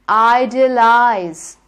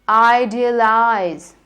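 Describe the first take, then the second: The two takes are said the same way.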